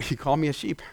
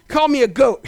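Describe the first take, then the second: First: Low, soft answer; settled reply. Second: Quick, lightly amused mock protest; mock complaint. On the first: Acted. Believer who hears it right, low soft reply. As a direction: drop right down, quiet and sure. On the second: Listener who mishears the message, quick mock complaint. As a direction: toss it out as a listener's grumble.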